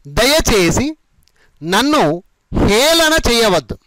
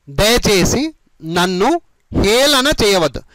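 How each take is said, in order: Both takes have the same delivery.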